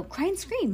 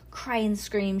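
First: Put-on much higher girlish order. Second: Said in the usual way. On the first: A narrator's reading. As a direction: give the order in a high-pitched character voice. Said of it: "ordered them in her normal voice". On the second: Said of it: "in her normal voice".

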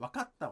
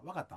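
First: Said in the usual way. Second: "わかった" with the small っ left out; dropped small tsu. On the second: Shown as a demonstration. Actor demonstrating Kansai speech, dropped small tsu in "わかった". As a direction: run か straight into た in "わかった", no held stop. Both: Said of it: "ちっちゃい「つ」あんま言わなかったり".

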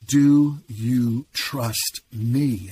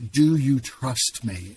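First: Very slow, weighty repeat of the question; loud voice of God. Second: Slow, measured voice of God; loud voice of God. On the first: God pressing a broken man for an answer, drawn out and emphatic. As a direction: stretch out every word as God's insistent voice. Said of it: "And then I heard again". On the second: God asking a man in his breakdown, slow and measured. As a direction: retell God's question slowly, without shouting. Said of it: "it was a loud voice". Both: Retold or imitated.

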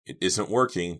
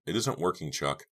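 First: Slightly raised, distressed answer; a touch of a sob, understated; mild sobbing reply. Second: Understated letdown at normal volume; disappointed murmur. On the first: Girl answering friend's plea, mildly tearful. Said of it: "told her with a sob". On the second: Girl telling friend the sawing fails, mildly disappointed. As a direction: let mild disappointment show, no push. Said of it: "unable to hide her disappointment". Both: A narrator's reading.

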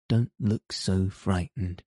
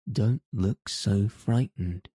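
First: Put-on calm the nervous child down, understated concern; worried. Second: Slow, lightly exclaimed, understated; mild exclamation. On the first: Guardian soothes the frightened little girl, mildly worried. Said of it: "he said in a worried voice". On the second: Guardian insists to the anxious child, a touch exclaimed. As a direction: press the point with a slow, mild outburst. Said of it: "he exclaimed". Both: A narrator's reading.

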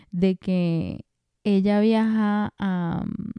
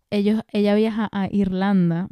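First: Muy lento, alargando "viaja a"; titubeando. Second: Said in the usual way. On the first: Real, not acted. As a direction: estira las palabras mientras buscas el dato. Duda buscando el dato. ("de que ella viaja a" arrastrado, muy lento, dudando)

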